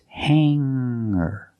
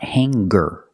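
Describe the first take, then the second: First: No hard G sound follows the nasal. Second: A hard G sound follows the nasal. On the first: The speaker calls it right. "hanger does not have a hard G sound" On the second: The speaker calls it wrong. "It's not hanger"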